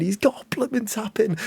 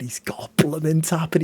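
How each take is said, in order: First: Excited. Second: Said in the usual way. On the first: Real, not acted. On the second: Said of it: "repeat with stress".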